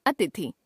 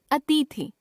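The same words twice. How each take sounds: First: Said in the usual way. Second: अतिथि with long "tee"; mispronounced middle vowel. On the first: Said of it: "शुद्ध". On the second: Shown as a demonstration. Teacher showing a common error, अतिथि with long middle vowel. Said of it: "अशुद्ध".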